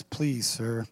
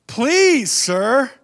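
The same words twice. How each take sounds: First: Low, soft, meek please sir; timid please. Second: Much higher, louder eager please sir; thrilled high please; excited please. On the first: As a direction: say it shyly. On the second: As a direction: burst out with eagerness. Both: Shown as a demonstration. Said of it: "See the difference?".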